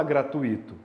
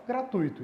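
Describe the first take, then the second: First: "gratuito" with stress on the í, gra-tu-Í-to; wrong pronunciation. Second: "gratuito" as a diphthong, gra-TUI-to; correct pronunciation. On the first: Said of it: "você não fala gratuito". ("gratuito" errado, com hiato: gra-tu-Í-to) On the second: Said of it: "você fala gratuito". ("gratuito" certo, com ditongo: gra-TUI-to) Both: Shown as a demonstration.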